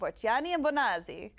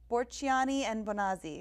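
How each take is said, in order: First: The name is said with an exaggerated Italian accent. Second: The name is said in a plain, unaccented way. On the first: "You gotta say it like you're Italian" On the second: "I'm really bad at pronouncing this"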